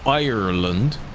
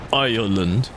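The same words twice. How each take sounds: First: The middle r is pronounced clearly and distinctly. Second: The middle r is dropped, sounding like island. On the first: The speaker calls it right. "So I have to go" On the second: The speaker calls it wrong. "that just sounds really silly"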